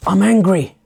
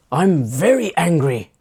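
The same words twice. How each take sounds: First: Raised, higher mock-angry outburst; acted anger. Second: Mock anger leaning on "very"; acted escalating anger. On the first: Complainer testing what is permitted, acted angry outburst. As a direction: burst out louder, testing the limit. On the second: Complainer pushing for more permission, mildly acted escalating anger. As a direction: push the pretend anger a step further. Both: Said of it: "they're getting louder".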